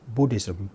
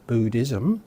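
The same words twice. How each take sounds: First: The U vowel is short. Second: The U vowel is long. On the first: The speaker calls it right. "it's Buddhism" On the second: The speaker calls it wrong. "nor is it Buddhism"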